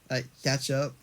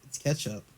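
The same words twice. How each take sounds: First: "ketchup" as CATCH-up; catch-up form. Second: "ketchup" as KETCH-up, softer. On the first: Showing the rejected form, "ketchup" as CATCH-up. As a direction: say "ketchup" with the a of "cat". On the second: Correcting to the spelled form, "ketchup" as KETCH-up. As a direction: say "ketchup" with the e of "get". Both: Shown as a demonstration. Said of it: "It's got an E in it".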